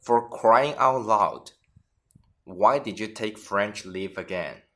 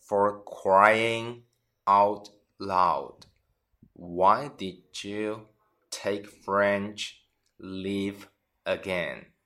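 First: Said in the usual way. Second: Broken into slow chunks with pauses; slow teaching read. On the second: Shown as a demonstration. Teacher repeats example slowly for students. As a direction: spell it out slowly for learners. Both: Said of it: "举个例子".

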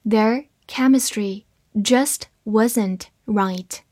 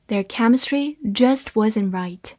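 First: Very slow, one word at a time; slow reading. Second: Said in the usual way. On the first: Shown as a demonstration. Teacher models the second sentence for learners, slow reading. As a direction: read slowly, pausing between the words. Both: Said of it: "慢慢来读".

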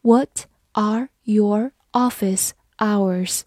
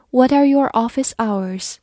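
First: Slow, deliberate read; slow classroom model question. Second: Said in the usual way. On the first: Shown as a demonstration. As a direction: stretch each word for learners. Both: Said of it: "好，我们慢慢来读。".

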